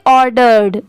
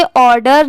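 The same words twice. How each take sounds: First: ऑर्डर्ड ending in a clear 'derd'; sounded final d. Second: ऑर्डर ending in 'der', no d after it; missing final d. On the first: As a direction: say ऑर्डर्ड as 'or-derd'. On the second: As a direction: say ऑर्डर as 'or-der'. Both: Shown as a demonstration. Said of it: "आप इसे ऑर्डर नहीं पढ़ेंगे".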